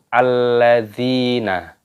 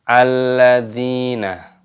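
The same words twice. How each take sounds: The two takes are said the same way.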